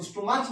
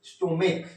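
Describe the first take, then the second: First: स्टोमच said with a ch sound at the end, the wrong way; wrong pronunciation. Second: स्टोमिक ending in a clear k sound; correct pronunciation. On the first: Teacher to students showing the wrong way, स्टोमच with a च ending. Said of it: "इसको स्टोमच मत पढ़िएगा". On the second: Teacher to students giving the right way, स्टोमिक with a क ending. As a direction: say स्टोमिक with the final क. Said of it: "इसको पढ़िएगा". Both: Shown as a demonstration.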